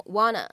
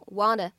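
First: "wanna" with a clear n in the middle; "wanna" with no t sound; reduced "want a". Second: "wanna" as a first accepted variant, middle lightly tapped; "wanna" with a light tap, like "wah-da"; reduced "want a". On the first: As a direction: run "want a" together as "wah-nuh". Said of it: "你也可以读成wanna". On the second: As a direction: run "want a" together as "wanna". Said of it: "你既可以读成wanna". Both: Shown as a demonstration.

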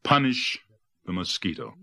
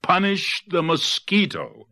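First: Measured first call of a chant; restrained storybook crowd cry; animals' cry. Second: High, drawn-out crowd cry; high storybook rallying call; animals' outcry. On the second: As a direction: cry it out slowly, pitch way up. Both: A narrator's reading. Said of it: "cried all the animals".

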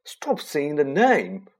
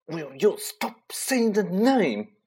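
First: Whispered fear. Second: Slow, drawn fearful hiss. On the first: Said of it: "said Ron in a terrified whisper". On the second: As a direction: hiss it as if afraid to be heard. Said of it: "Ron hissed". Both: Acted.

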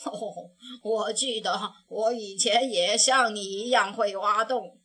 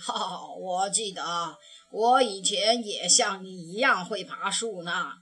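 First: Sighing. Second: Fond grandpa. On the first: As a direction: sigh gently over the past. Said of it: "他叹着气说". (熊爷爷叹着气回忆，低沉) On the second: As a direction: lower old grandpa voice, a hint of amusement. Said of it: "熊爷爷笑起来". (熊爷爷笑着回忆往事，低沉) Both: A narrator's reading.

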